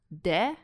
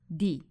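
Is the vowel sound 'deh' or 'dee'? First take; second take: deh; dee. First: The vowel sounds like the 'e' in 'bed'. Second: The vowel sounds like the 'ee' in 'deep'. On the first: The speaker calls it wrong. "So it's not de" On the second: The speaker calls it right. "but di"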